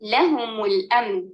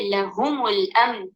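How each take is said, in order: First: The stress is on the first syllable. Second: The stress is on the second syllable. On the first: The speaker calls it right. "लाम पर हद नबर डालकर" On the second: The speaker calls it wrong. "हा पर डालकर कहेंगे"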